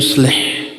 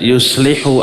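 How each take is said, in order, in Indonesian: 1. Kata itu berakhir pada konsonan terakhir. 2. Kata itu berakhir dengan vokal u pendek. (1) "makanya yuslih dibaca jazm" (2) "tidak yuslihu a'malakum, tidak"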